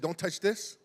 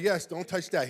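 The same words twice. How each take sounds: First: Son asks dad, questioning rise on THIS. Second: Father confirms the rule, falling on THAT; firm confirmation. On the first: Son checks a rule with dad, questioning. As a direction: ask "Don't touch this", rising at the end. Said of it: "as he's asking". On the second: Dad answers his son's question, firm confirmation. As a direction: answer "Yes, don't touch that" with a falling end. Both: Retold or imitated.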